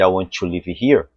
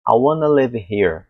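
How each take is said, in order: First: Brazilian-accented "live" as "leevi"; Portuguese-flavoured English, "want to" as "wan-tchi". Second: Slow "I wanna live here", short vowel in "live"; "wanna" linked, "live" as "lev"; native reduced pronunciation. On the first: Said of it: "aportuguesado, né, um sotaque forte". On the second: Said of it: "é diferente de". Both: Shown as a demonstration.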